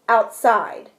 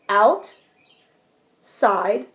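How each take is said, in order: First: The two syllables are joined without a pause. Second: There is a pause between the two syllables. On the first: "push it together" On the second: "I'm going to pause between my syllables"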